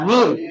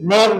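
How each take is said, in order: First: The syllable is said with an 'i' vowel. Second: The syllable is said with an 'e' vowel. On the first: The speaker calls it right. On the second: The speaker calls it wrong. "নের না"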